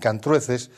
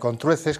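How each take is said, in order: First: The first vowel is an a sound. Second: The first vowel is an o sound. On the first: The speaker calls it wrong. "algunos eh, pronuncian Cantrueces" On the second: The speaker calls it right. "la correcta diríamos mejor que ye Contrueces"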